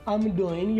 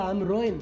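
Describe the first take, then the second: First: The word starts with a D sound, no final g. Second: The word starts with an R sound, no final g. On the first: "डोइन भी कर सकते हैं" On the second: "रोइन भी कर सकते हैं, डी को आर में कन्वर्ट कर सकते हैं"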